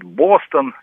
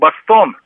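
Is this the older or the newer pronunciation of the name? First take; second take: newer; older. First: The name is said the newer way. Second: The name is said the older way. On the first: This is how it is said nowadays. "на новый манер переучиваюсь, говорить Бостон" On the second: This is how it was said in the past. "в мое время говорили, так сказать, Бостон"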